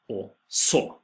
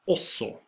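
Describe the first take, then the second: First: The stress is on the second syllable. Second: The stress is on the first syllable. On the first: It means and then. "you stress the så, the second syllable" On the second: It means also. "you stress the first syllable"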